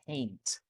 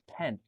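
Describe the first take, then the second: First: The vowel is a long, gliding 'ay' sound. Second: The vowel is a short, flat 'e' sound. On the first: The speaker calls it right. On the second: The speaker calls it wrong. "not pen"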